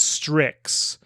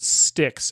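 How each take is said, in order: First: The name is said as 'strix'. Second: The name is said as 'sticks'. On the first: The speaker calls it right. "It's Strix" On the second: The speaker calls it wrong. "I mispronounced it"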